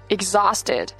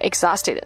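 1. x 读浊音 gz。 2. x 读清音 ks。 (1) "在这个后面是z 啊"

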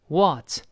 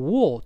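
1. 元音是开口且不圆唇的，嘴张得更大。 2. 元音是圆唇的，嘴唇向前撅。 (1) "美音中呢嫌撅嘴费劲，口型略大，读成what" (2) "英式发音读成what"

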